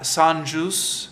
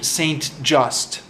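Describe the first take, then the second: First: The name is pronounced the French way. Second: The name is pronounced the English way. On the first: The speaker calls it right. "is the French pronunciation" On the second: The speaker calls it wrong. "That's not how you pronounce it"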